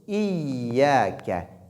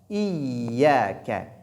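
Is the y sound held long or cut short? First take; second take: held long; held long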